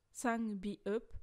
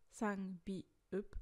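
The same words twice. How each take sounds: First: Sangbiup with a rising end; rising first take. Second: Sangbiup said a bit lower and softer; lower repeat. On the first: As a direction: present it, lifting on sangbiup. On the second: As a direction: repeat it, dropping back. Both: Shown as a demonstration. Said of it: "Cinq sangjaeum, double consonne".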